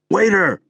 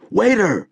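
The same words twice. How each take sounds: First: High, loud yell; high pitched yell of waiter. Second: High pitched yell of waiter. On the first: Calling the waiter again. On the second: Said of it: "Debro hated to yell". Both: A narrator's reading. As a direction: shout across the noisy club.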